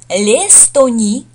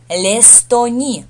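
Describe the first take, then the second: First: The article is said separately before the word. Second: The article is joined to the word as one.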